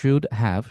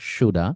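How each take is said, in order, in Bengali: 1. এটা দুটো পূর্ণ শব্দ হিসেবে বলা হয়। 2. এটা একটি সংকুচিত শব্দ হিসেবে বলা হয়।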